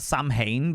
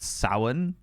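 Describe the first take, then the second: First: It is said the way it is spelled. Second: It is said with a different, unspelled sound. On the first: "It's spelled Samhain" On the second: "but it's pronounced Samhain or something like that"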